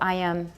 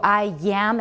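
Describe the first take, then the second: First: A light y sound links the two words. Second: A strong, exaggerated y sound links the words. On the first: The speaker calls it right. "It's not that strong, don't overdo it" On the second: The speaker calls it wrong. "if you go I am, it sounds a bit funny"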